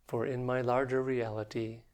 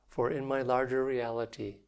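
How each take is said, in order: No difference in how they are said.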